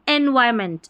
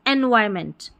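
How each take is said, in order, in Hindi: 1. बीच का 'r' नरम है, लगभग न के बराबर सुनाई देता है, गोल करके बोला जाता है। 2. बीच का 'r' नरम है, लगभग न के बराबर सुनाई देता है, गोल करके बोला जाता है।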